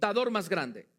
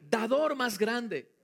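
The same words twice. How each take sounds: First: It is said in a plain, neutral tone. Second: It is said in a joyful, happy tone.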